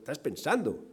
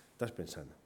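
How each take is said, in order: First: Said in the usual way. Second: A quiet, sinking afterthought; hushed repeat. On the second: Real, not acted. Preacher telling listeners their mind keeps going, hushed. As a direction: drop low and very soft.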